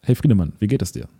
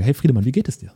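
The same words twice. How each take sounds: First: "Hey" stressed, "wie geht es dir?" falls and settles at the end; falling tune. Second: "wie geht es dir?" lifts up at "geht" and the end; rising question tune. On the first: Coach greets Friedemann again, ending falling and settled. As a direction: drop the voice at "dir?" instead of rising. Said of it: "wenn du nach oben gehst". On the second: Coach greets Friedemann, voice rising at the end. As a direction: let "dir?" climb up like a real question. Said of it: "ist es ein bisschen wie eine Frage". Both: Shown as a demonstration.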